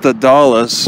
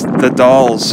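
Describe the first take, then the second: First: The name is said like 'Dallas', two syllables. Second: The name is said like 'dolls', one syllable. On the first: The speaker calls it wrong. "Maybe it's not pronounced the Dallas" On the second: The speaker calls it right. "Maybe it's the Dolls"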